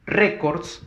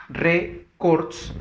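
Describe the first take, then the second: First: Said in the usual way. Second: Records split slowly as RÉ-cords, higher on RE; stress on RE. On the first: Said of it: "En cambio". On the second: Shown as a demonstration. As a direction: sound out records in two parts, weight on the first. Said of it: "fuerza de voz en la re". (records silabeado, con fuerza de voz en RE)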